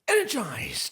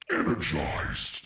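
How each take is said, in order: First: It is said in a normal voice. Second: It is said in an evil monster voice.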